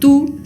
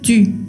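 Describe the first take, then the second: First: The vowel is a plain back 'oo' sound. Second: The vowel is a front rounded 'ü' sound. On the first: The speaker calls it wrong. "No quiero que lo pronuncien tú" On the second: The speaker calls it right. "sino tu. Es distinto"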